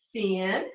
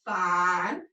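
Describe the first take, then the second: First: "thin" with a short i, set apart; short vowel. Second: "Fine" with a long i, set apart; long vowel. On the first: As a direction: say "thin" low and clear with short i. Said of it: "It was a closed syllable". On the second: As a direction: say "Fine" low, drawing out the long i. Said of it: "change its sound from short to long". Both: Shown as a demonstration.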